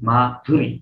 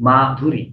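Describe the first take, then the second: First: The name is said smoothly as one unit. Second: The same.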